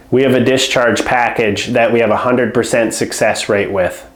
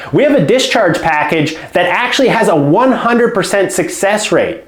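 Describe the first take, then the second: First: Low, flat, dropping pitch with no lift; flat low tonality. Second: Lifted pitch, stress on actually and success; confident tonality. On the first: To a home care client, the weak pitch: low and flat. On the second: To a home care client, the strong pitch: confident emphasis. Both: Shown as a demonstration. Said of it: "You see the difference in tonality there?".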